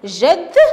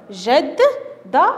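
First: Said in the usual way. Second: جدة split into its syllables, the doubled dal split, said very slowly; جدة broken into syllables for the class. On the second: Shown as a demonstration. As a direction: sound out جدة in slow separate beats. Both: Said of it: "نجد التصحيح على هذا الشكل".

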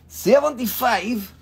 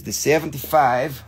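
First: High-pitched price echo; playful echo. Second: Said in the usual way. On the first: Pretend. Seller repeats the price to buyers, playfully high.

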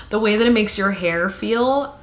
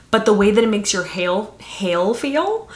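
First: "hair" said clearly with an R ending; corrected word. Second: "hail" said for "hair", with an L ending; slip of the tongue. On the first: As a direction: fix the slip and say "hair" cleanly. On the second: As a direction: stumble and say "hail" instead of "hair". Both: Real, not acted.

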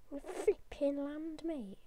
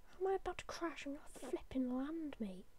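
First: Said in the usual way. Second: Whisper. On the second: Real, not acted. Whispered defiant reassurance.

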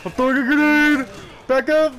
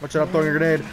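First: Loud, high panicked yell; grenade warning yell. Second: A bit louder; raised warning. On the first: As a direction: yell to clear the blast. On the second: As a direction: call out the warning. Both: Real, not acted. Warning teammate in game.

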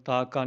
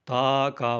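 First: ਤਾ ਕਾ joined as one word; the two words of ਤਾ ਕਾ merged; ਤਾ ਕਾ run together. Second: ਤਾ ਕਾ as two distinct long words; a clear break inside ਤਾ ਕਾ; ਤਾ ਕਾ said separately. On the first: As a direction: say ਤਾ ਕਾ with no break between syllables. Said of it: "ਤਾ ਕਾ ਨਹੀਂ ਬੋਲਣਾ". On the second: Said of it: "ਵੱਖ-ਵੱਖ ਬੋਲਣਾ". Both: Shown as a demonstration.

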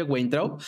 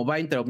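First: [name] starting with a "gw" sound; Spanish spelling pronunciation. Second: [name] starting with a "v" sound; German pronunciation. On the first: Host shows his surname as written, "Gwain" in [name]. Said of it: "mi apellido se escribe [name]". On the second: Host shows the German way of his surname, "Vain" in [name]. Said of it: "se pronuncia algo como". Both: Shown as a demonstration.

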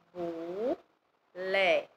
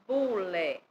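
First: "bu, lé" as two drawn-out syllables with a pause; split into syllables. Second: Said in the usual way. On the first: Shown as a demonstration. Teacher breaking bule down for learners, "bu, lé" syllable by syllable. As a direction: sound out "bu, lé" one piece at a time. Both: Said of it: "Palavras com a letra B".

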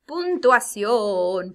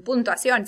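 First: Puntuación drawn out slowly and loud; teacher stressing puntuación slowly; slow emphasis. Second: Said in the usual way. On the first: Shown as a demonstration. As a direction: stretch out puntuación slowly, syllable by syllable.

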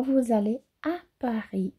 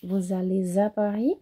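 First: "allez" and "à" kept apart, no Z; without liaison. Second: "allez à" joined with a Z sound; with liaison. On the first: Teacher showing the unlinked option, separated. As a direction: say allez then à with no link. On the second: Teacher showing liaison to students, linked. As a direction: link allez into à with a Z. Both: Shown as a demonstration. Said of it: "vocês também podem falar".

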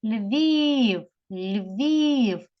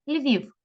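First: Львів with a long, drawn-out і; calling the word. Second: Said in the usual way. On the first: Shown as a demonstration. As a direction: call out Львів, stretching the vowel. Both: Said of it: "кличемо слово".

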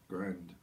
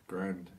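No difference in how they are said.

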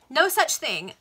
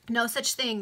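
First: Higher, much louder denial; emphatic denial. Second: Said in the usual way. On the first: A narrator's reading. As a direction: slam the no down. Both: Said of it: "restarted line".

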